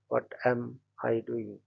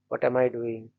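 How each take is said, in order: First: The word 'am' is stressed. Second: The word 'I' is stressed.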